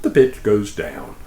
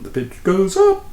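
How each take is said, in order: First: Pitch falling. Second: Higher voice on "up"; pitch rising. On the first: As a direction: drop lower on "down". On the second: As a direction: lift the voice to show the pitch climbing. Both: Shown as a demonstration.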